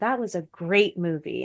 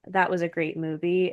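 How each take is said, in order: First: It is said with lively stress and emphasis. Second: It is said flatly, without much emphasis. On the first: The speaker shows expected excitement. "putting more" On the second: The speaker shows little outward excitement.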